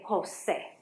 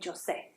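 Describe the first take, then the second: First: It starts with an English H sound. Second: It starts with an English J sound. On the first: The speaker calls it right. "We say Jose" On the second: The speaker calls it wrong. "we don't say Jose"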